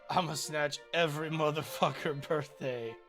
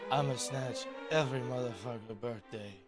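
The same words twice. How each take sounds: First: It is delivered with lots of forceful energy. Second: It is delivered with calm, restrained energy. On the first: The speaker calls it wrong. "I gave that too much oomph" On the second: The speaker calls it right. "he doesn't say it like that in the movie. He goes"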